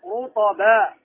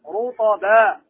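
No difference in how they are said.

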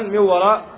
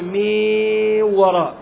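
First: The vowel before the nasal stays short. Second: The vowel before the nasal is drawn out. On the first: The speaker calls it right. "فمثلا" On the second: The speaker calls it wrong. "الحذر الذي نبه عليه أن تقول"

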